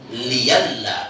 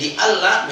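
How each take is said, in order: First: A y sound comes before the second vowel. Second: A glottal stop comes before the second vowel.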